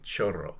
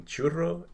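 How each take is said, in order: First: CHORRO with a clear "oh", CHO-rro; contrasted Spanish vowel. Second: CHURRO with a clear "oo", CHOO-rro; contrasted Spanish vowel. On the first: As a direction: stress the "oh" in chorro. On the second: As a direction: stress the "oo" in churro. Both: Shown as a demonstration. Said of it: "there is a difference between".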